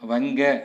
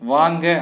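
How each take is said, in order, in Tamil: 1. முதல் உயிர் எழுத்து குறில். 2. முதல் உயிர் எழுத்து நெடில். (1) "வங்க அப்படிங்கிற மாதிரி வாசிக்கலாம்" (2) "வாங்க அப்படின்னு நம்ம சொல்றோம்"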